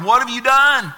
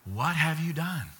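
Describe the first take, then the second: First: Loud, high, thundering demand; forceful, raised-voice reproach; God confronting sinners. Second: Soft, grave reproach; hushed, sorrowful-style accusation; God questioning Cain. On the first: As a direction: cry it out as a booming accusation. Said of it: "God asked that very question of Adam and Eve". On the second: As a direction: ask it quietly and let it sink in. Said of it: "What does God say to him?". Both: Acted.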